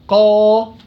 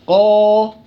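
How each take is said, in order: The two takes are said the same way.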